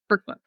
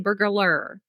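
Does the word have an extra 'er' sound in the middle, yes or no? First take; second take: no; yes. First: No extra 'er' sound is in the middle. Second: An extra 'er' sound is added in the middle. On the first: The speaker calls it right. "there's no er. It's burglar" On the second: The speaker calls it wrong. "you always say burglar"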